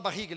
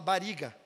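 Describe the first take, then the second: First: "barriga" with a guttural, h-like double R; standard double R. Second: "bariga" with a single tapped R; Italian-Brazilian single R. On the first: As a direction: say "barriga" the usual Brazilian way, R from the throat. ("barriga" com erre duplo, aspirado) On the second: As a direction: tap the R lightly in "bariga", like Italian settlers. ("bariga" com um erre só, batido) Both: Shown as a demonstration. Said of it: "o italiano não fala dois R's".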